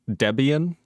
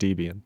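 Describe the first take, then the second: First: The first vowel is a short 'eh' sound. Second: The first vowel is a long 'ee' sound. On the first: The speaker calls it wrong. "the E in Debian is pronounced like the E in tests" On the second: The speaker calls it right. "I'm going to continue saying Debian"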